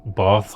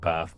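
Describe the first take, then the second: First: The long vowel is pronounced at the back. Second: The long vowel is pronounced at the front. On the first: This is the broad vernacular pronunciation. "those are a real kind of deep Belfast pronunciations" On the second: This is the polite pronunciation. "Dublin and polite Belfast will have bath"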